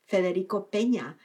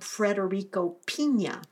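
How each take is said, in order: First: The surname starts with a 'pay' sound. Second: The surname starts with a 'pee' sound. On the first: The speaker calls it right. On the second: The speaker calls it wrong.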